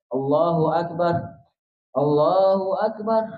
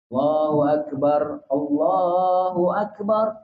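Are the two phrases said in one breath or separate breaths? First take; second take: separate breaths; one breath. First: Each phrase gets its own panting breath. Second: Both phrases are said in a single breath. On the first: The speaker calls it wrong. "Jangan ... Allah habis jogging apa budak ini" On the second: The speaker calls it right. "ini dua takbir dalam satu nafas"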